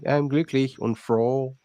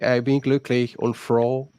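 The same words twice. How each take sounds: First: Put-on "I'm glücklich und froh" slow, with an English accent on "froh". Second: "I bin glücklich und froh" said slowly and carefully, like a German phrase; proper German line. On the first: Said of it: "They say". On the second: Shown as a demonstration. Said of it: "and they should".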